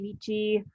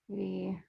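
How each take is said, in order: First: It is said with a soft ch sound. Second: It is said with a hard k sound.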